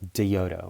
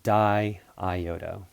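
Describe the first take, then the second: First: The two i sounds merge into one syllable. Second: Both i sounds are said as separate syllables. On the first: The speaker calls it wrong. "you're gonna pronounce it like diodo or something like that" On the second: The speaker calls it right. "so it's be di iodo"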